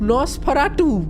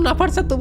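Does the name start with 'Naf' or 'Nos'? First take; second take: Nos; Naf. First: The name is said as 'Nosferatu'. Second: The name is said as 'Nafar Satu'. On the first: The speaker calls it right. "এই এই লোকটার নাম নসফারাটু।" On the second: The speaker calls it wrong. "আমি নাফার সাতু নাফার সাতু বলছি ভাই, আমিও noob হয়ে গেছি।"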